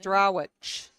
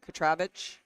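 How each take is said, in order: First: The last syllable starts with a W sound. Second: The last syllable starts with a V sound.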